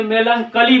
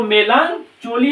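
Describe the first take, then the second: First: मेलनकली with CH pronounced as K; correct मेलनकली. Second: मेलनचोली with CH read as in "church"; mispronounced मेलनचोली. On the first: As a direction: say मेलनकली with a hard K sound, "kali". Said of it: "मेलनकली पढ़ेंगे". (मेलनकली में "क" की आवाज़ के साथ सही उच्चारण) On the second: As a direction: say मेलनचोली with "cho" instead of a K sound. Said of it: "इसको मेलनचोली नहीं पढ़ेंगे". (मेलनचोली को "चो" बोलकर गलत पढ़ना) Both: Shown as a demonstration.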